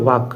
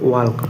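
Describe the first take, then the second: First: The word is said without an L sound. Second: The word is said with an L sound. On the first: The speaker calls it right. "এটার উচ্চারণ হবে ওয়াক" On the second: The speaker calls it wrong. "Sorry ওয়াল্ক ওয়াল্ক হবে না"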